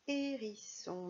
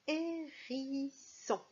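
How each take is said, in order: First: Said in the usual way. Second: Hérisson stretched out as hé-riii-sson, higher; slow dictation. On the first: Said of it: "Le mot suivant". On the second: Shown as a demonstration. Teacher announces the next word, drawn-out hérisson. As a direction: dictate hérisson very slowly, syllable by syllable. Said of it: "Le mot suivant, c'est".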